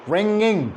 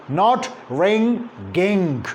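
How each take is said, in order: First: The ng is nasal with no g sound. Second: A hard g sound follows the ng. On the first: The speaker calls it right. "It is like this, ... There is no g" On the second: The speaker calls it wrong.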